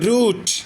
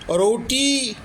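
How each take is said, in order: First: The word ends cleanly on a t sound. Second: The word ends with an added ee vowel. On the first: The silent final letter is left unsounded. The speaker calls it right. "सही उच्चारण होता है, रूट।" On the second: Every written letter is sounded out. The speaker calls it wrong. "ये बच्चा क्या बोलेगा, रोटी, रोटी ऐसे बोलेगा। टी की आवाज़ देगा, ई की आवाज़ बोलेगा।"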